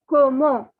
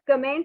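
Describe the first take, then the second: First: It sounds like como, with no final consonants. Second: It sounds like the English word comment. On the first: The speaker calls it right. "It is pronounced as como" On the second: The speaker calls it wrong. "it is not comment"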